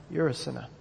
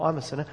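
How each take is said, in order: First: You're stressed and pointed, softer overall. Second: I'm stressed, not You're. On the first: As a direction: put the weight on You're, accusing. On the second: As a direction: lean on I'm as a confession. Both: Shown as a demonstration. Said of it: "It's often not".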